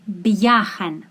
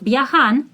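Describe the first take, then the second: First: The stress falls on the first syllable. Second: The stress falls on the last syllable. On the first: The speaker calls it right. "What syllable do I stress?" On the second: The speaker calls it wrong. "Not viajan"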